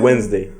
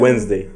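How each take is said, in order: First: The word is said in a shortened form. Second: The word is said in a shortened form.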